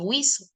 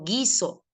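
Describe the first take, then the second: First: The U after the G is pronounced aloud. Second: The U after the G is silent. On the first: The speaker calls it wrong. "yo no digo guiso" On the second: The speaker calls it right. "digo guiso"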